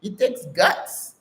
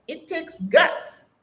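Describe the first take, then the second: First: Said in the usual way. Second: "it takes guts" said slowly, pitched high and stretched out; "takes" lifted and held high, every word slowed in "it takes guts"; slow emphatic. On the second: Shown as a demonstration. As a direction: lean hard on "takes" and draw "it takes guts" out.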